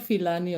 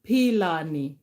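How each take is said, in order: First: The name begins with an f sound. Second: The name begins with a p sound. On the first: The speaker calls it wrong. "It's not Filani or something that you're thinking" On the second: The speaker calls it right. "it's Pilani"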